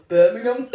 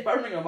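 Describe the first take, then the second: First: Loud, hammed-up Birmingham accent; exaggerated Brummie place name; mock Birmingham accent. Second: Said in the usual way. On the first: Shown as a demonstration. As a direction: blurt it in a bad Brummie accent, rising. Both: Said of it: "I have a problem with saying Birmingham properly".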